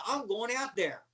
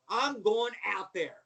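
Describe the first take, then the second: First: Said in the usual way. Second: "I'm going out there" slowed down, each word driven home; emphatic insistence. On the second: Retold or imitated. Wrestler insisting at WrestleMania, "I'm going out there" slow and emphatic. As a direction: say "I'm going out there" slowly and firmly, as final.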